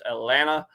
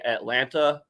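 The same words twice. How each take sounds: First: The second t sound is dropped. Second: The second t sound is clearly pronounced. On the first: The speaker is a local of the city. "we we don't add that extra T A, you know. So it's Atlanta" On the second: The speaker is not from the city. "if you're not from here, you'll obviously say Atlanta"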